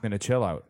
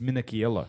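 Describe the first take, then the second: First: The name is said with an anglicized pronunciation. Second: The name is said with an Italian pronunciation. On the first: The speaker calls it wrong. "it's not Anthony Minicello or Mark Minicello" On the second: The speaker calls it right. "It's Minichiello"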